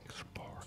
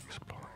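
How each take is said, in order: Both takes have the same delivery.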